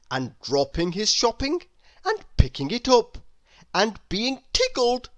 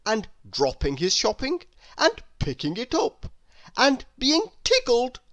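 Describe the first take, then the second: No difference in how they are said.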